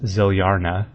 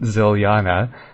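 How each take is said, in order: First: It has an r sound before the last syllable. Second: It has no r sound before the last syllable.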